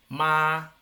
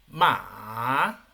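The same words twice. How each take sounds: First: The pitch stays high and level. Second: The pitch rises from middle to high. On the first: "El primero. / muy bien" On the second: "El segundo. / muy bien"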